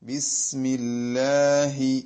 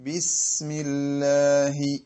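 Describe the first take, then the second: The two takes are said the same way.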